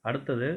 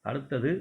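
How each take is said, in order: Both takes have the same delivery.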